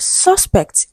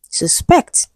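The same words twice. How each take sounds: First: "suspect" as a noun, SUS-pect; "suspect" stressed on SUS; stress on first syllable. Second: "suspect" as a verb, sus-PECT; "suspect" with a light first syllable, strong PECT; stress on second syllable. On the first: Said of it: "it is stressed on the first syllable". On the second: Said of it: "stress shifts to the second syllable". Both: Shown as a demonstration.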